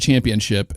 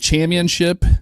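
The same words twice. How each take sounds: First: The word is pronounced in the ordinary way. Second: The word is pronounced in an unusual, imitated way. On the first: It is how the word is normally said. "instead of championship" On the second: It imitates how a particular broadcaster said it. "he'd say championship"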